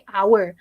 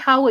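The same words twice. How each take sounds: First: The word begins with no H sound. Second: The word begins with an audible H sound. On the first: The speaker calls it right. "you didn't pronounce the sound of the H" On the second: The speaker calls it wrong. "You don't say hour"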